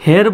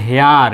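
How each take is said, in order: First: হেয়ার as a short "her", higher pitched; short vowel. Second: হেয়ার as "hee-ar", with an "ee" glide; long vowel. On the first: Teacher shows the unwanted form, short-vowel হেয়ার. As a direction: keep হেয়ার to one short "e". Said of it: "short sound হয়ে গেল". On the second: Teacher shows the wanted form, long-vowel হেয়ার. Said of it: "long sound হয়ে যাবে". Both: Shown as a demonstration.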